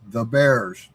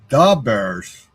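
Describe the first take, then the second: First: It is said in a plain, general accent. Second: It is said in a Chicago accent. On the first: The speaker calls it wrong. "That's not the way you say it" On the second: The speaker calls it right. "Because they say it in Chicago"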